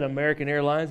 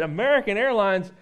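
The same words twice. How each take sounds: First: Said in the usual way. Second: American Airlines? asked higher in mock disbelief; scornful disbelief. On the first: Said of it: "He said". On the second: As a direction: barber scoffs at the customer's airline, incredulous and higher. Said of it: "And then the barber started in".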